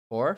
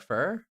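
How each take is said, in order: First: The word has a full 'four' vowel. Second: The word has a reduced 'fur' vowel. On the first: "You say four?" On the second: "do you say fur?"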